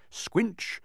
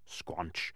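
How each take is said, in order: First: Squinch jumped up high. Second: Squanch dropped low and soft. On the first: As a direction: squinch said squeaky high like a wet step. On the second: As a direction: squanch said deep and muffled like a heavy step. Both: A narrator's reading. Footstep sound effect.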